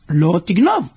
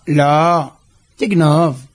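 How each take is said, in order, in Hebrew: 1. שתי המילים נאמרות ביחד בלי הפסקה. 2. יש הפסקה אחרי המילה הראשונה. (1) "כתוב פה, לא תגנוב" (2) "הוא יכל לקרוא את זה ככה"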